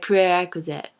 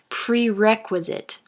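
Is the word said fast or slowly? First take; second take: fast; slowly. First: The word is said fast and comes out garbled. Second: The word is said slowly and carefully. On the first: "if I say it too fast, it turns out like" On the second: "I have to say it slowly so you guys will know what it is"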